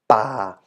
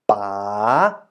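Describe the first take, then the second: First: The pitch stays low throughout. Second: The pitch dips and then rises. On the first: "The low tone" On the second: "And the rising tone"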